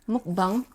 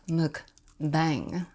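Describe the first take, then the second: First: The word is said with a Korean accent. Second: The word is said with an English accent. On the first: "If you want to say it in like Korean" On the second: "Or is it pronounced"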